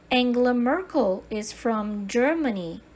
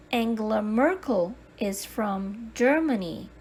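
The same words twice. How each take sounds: The two takes are said the same way.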